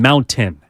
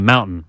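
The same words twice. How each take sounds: First: The T in the middle is clearly pronounced. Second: The T in the middle is silent. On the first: "pronounces the T in mountain" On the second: "as opposed to"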